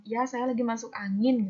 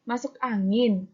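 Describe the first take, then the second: First: Said in the usual way. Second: Slow "angin", put to the reader as a question; questioning intonation. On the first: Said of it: "pembaca atau pendengar menjawab". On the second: Shown as a demonstration. Ad asks the reader to answer, questioning intonation. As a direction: ask "masuk angin" slowly, expecting an answer. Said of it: "diharapkan untuk menjawab".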